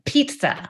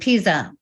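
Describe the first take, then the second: First: The middle consonant has a t sound. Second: The middle consonant has no t sound. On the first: The speaker calls it right. "I learned it kind of had a T in it" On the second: The speaker calls it wrong. "I was always saying pizza"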